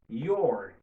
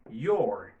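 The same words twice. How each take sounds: First: The two words merge into one syllable. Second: The same.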